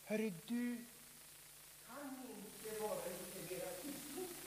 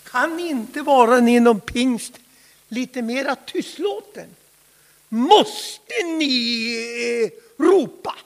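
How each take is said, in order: First: Much softer, almost hushed asking; hushed request. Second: Louder, pressing the question home; louder complaint. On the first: Critics asking Levi Petrus to tone down, hushed. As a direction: ask meekly under your breath. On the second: Critics demanding Pentecostals stop shouting, loud complaint. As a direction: push the complaint out with force. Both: Acted. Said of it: "Och de frågar Levi Petrus".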